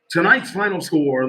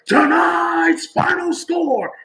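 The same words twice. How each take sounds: First: It is said in a flat, subdued way. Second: It is said in an excited, celebratory way. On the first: The home team lost the game. "When we lose" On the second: The home team won the game. "at the end of the game when we win"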